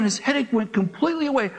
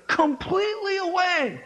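First: Said in the usual way. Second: Higher, laughing echo of completely away; excited repeat. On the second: Shown as a demonstration.

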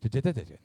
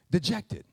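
First: "Dejected" mumbled and garbled as "tetat"; fumbled word. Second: Said in the usual way. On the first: Real, not acted. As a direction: stumble over "Dejected", consonants blurred. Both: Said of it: "I can't even say it".

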